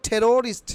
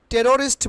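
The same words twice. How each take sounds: First: টেরোরিস্ট with aspirated T, long middle vowel; corrected pronunciation. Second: টেরোরিস্ট with unaspirated T; wrong-way example. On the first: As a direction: puff the T of টেরোরিস্ট. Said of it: "আমরা কি বলবো?". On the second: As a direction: puffless T in টেরোরিস্ট. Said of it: "বলবো না". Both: Shown as a demonstration.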